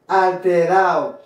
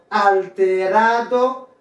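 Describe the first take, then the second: First: Alterado said "al-te-RAO", falling; "alterado" with its D silent; dropped D. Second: Alterado slowly with "-RA-do" sounded; "alterado" ending in a distinct "-ado"; full D. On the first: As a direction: slide A into O in alterado. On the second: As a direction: say alterado in full, D clearly heard. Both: Shown as a demonstration. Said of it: "ou qu'à prononcer ou qu'à pas".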